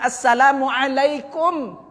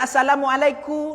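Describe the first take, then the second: First: The final m sound is clearly pronounced. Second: The final m sound is barely heard. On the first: The speaker calls it right. "Jelaskan betul-betul mimnya" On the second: The speaker calls it wrong. "tidak terdengar mimnya"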